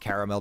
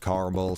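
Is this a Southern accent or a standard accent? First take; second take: standard; Southern. First: It is said with all the sounds, standard style. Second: It is said in a Southern accent, dropping sounds.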